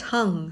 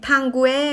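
First: "tongue" as one syllable, tung; correct pronunciation. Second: "tanguer" drawn out as tang-gue, higher pitch; naive wrong reading. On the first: Shown as a demonstration. Teacher corrects the easy-looking word, correct "tongue" as tung. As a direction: say "tongue" simply, ending on ng. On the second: Acted. Overconfident learner finds it easy, naive wrong "tanguer". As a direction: confidently misread tongue as "tanguer", stretched out. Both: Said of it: "จริงๆ ออกเสียงง่ายๆว่า".

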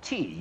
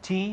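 First: "tea" with a longer, heavier vowel; weighted vowel. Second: Said in the usual way. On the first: Shown as a demonstration. Teacher repeats the subtle difference, weighted vowel. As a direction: hold and press the vowel of "tea". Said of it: "หนักหน่อย". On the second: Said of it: "ธรรมดาเลย".

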